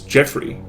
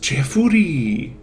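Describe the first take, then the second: First: The name is said with two syllables. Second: The name is said with four syllables. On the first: It is the name's own form. The speaker calls it right. "It's two syllables" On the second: It is how the name is rendered in Japanese. The speaker calls it wrong. "My name in Japanese is Jeffuri. ... not four"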